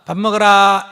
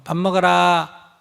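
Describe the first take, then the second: First: Loud call to come eat; a loud, plain announcement that dinner is ready. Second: Slow, even call to eat; just tell them, slowly and calmly; a mother calmly telling her kid it's mealtime; calm announcement. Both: Shown as a demonstration. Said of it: "이렇게 알리고".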